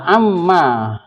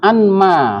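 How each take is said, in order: First: The n merges into a doubled m. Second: The n sound is kept before m. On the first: This is how it is actually read. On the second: This is the original form.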